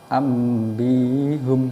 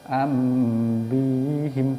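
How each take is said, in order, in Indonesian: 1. Akhiran itu memiliki vokal u sebelum m. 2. Akhiran itu memiliki vokal i sebelum m. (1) "bahas humnya ini ambihum" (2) "boleh dibaca ambihim boleh"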